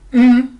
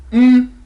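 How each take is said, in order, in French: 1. Le mm est tenu sur un ton haut. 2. Le mm est tenu sur un ton haut.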